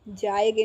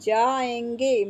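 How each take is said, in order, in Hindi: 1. 'ge' से पहले का स्वर सामान्य है, अनुनासिक नहीं। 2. 'ge' से पहले का स्वर अनुनासिक है। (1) "जाएगे नहीं" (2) "ए पे अंकी बिंदी आएगी"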